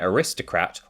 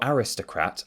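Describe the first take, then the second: First: It is said with an American pronunciation. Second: It is said with a British pronunciation.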